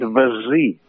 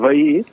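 First: A voiced s sound is heard between the vowels. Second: No s sound is heard between the vowels. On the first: This is the Balearic form. "han conservat vesí. Amb aquesta sonora" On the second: This is the more widespread form. "la paraula ja més comuna"

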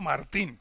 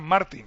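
First: The stress is on the last syllable. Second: The stress is on the first syllable. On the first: This is the Spanish form with the written accent. The speaker calls it right. "yo soy español y me llamo Martín" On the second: This is the anglicized form he disliked. The speaker calls it wrong. "Él le jodía mucho que le llamaran Martín"

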